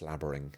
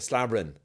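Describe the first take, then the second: First: The ending is said with a clear final g. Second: The ending is said without the final g. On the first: This is how the speaker says it. "I'm really emphasising the ing" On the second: This is how the other person says it. "you say slabbering"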